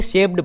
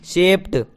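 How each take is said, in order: First: शेप्ड said as "shep-d" with voiced D; wrong pronunciation. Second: शेप्ड said as "shept" with final T; correct pronunciation. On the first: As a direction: end शेप्ड wrongly on a ड sound. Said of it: "कुछ लोग इसे शेप्ड पढ़ते हैं". (शेप्ड का गलत उच्चारण, अंत में ड) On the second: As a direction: end शेप्ड on an unvoiced ट sound. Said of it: "जबकि ये होता है". (शेप्ड का सही उच्चारण, अंत में ट) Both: Shown as a demonstration.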